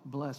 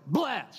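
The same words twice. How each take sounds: First: The word is said weakly, without force. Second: The word is punched out with force.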